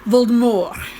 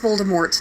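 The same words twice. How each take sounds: First: It is said in a French style. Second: It is said in a plain English style. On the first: The speaker calls it wrong. "not Voldemort, like some snob French" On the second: The speaker calls it right. "His name's Voldemort"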